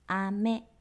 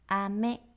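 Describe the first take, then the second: No difference in how they are said.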